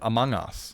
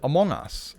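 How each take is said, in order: First: The first vowel sounds like 'ung'. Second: The first vowel sounds like 'ong'. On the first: "instead of" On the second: "why do I pronounce it"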